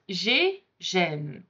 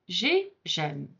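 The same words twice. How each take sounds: First: J'ai gêne with a closed é in J'ai; first sound demo. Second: J'ai gêne with an open è in gêne, softer; second sound demo. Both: Shown as a demonstration. Teacher contrasts two vowel sounds for beginners. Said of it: "They're two different sounds".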